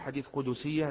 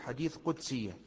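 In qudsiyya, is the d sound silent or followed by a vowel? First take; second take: vowel; silent. First: The d in qudsiyya is followed by a vowel. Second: The d in qudsiyya has no vowel after it. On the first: The speaker calls it wrong. "تحريك الدال، وهذا ليس بصحيح. لا نقول" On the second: The speaker calls it right. "نقول"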